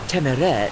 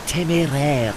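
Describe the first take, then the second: First: The e vowels are plain English ones. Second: The e vowels are French acute ones. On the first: The name was anglicized after capture. The speaker calls it right. "They were given everyday common or garden E's, which I inherited. Hence" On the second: The original French name. The speaker calls it wrong.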